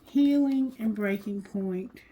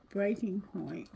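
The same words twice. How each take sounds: First: Said in the usual way. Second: Breaking point whispered softly, breath only. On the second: Shown as a demonstration. Tarot reader repeats the card's words to viewers, whispered. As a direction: let "Breaking point" fall to a soft whisper.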